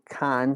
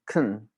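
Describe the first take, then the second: First: The vowel is full and clearly pronounced. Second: The vowel is reduced and barely pronounced. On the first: The speaker calls it wrong. "You don't say can so often" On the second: The speaker calls it right. "You just kind of say like can, especially when you're speaking fast"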